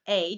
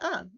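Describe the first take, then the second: First: The word has a full 'ay' vowel. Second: The word is a short, reduced 'uh' vowel.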